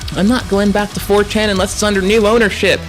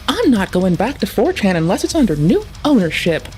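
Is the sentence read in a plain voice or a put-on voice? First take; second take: plain; put-on. First: It is read in a plain, ordinary voice. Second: It is read in a put-on character voice. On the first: The speaker calls it wrong. "we need different inflection for this one" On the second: The speaker calls it right. "What voice do we give this one?"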